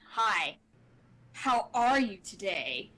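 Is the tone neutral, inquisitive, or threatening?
threatening. It is said in a threatening, menacing tone.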